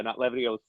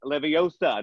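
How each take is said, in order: First: "Leviosa" as levio-SAH, stress moved to the end; wrong pronunciation. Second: "Leviosa" as levi-OH-suh, stress on O; right pronunciation. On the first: Host quotes the film's correction, "Leviosa" wrongly as levio-SAH. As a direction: mimic the mistake, "Leviosa" ending on SAH. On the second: Host quotes the film's correction, "Leviosa" as levi-OH-suh. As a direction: correct like a pupil, "Leviosa" with long OH. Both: Acted.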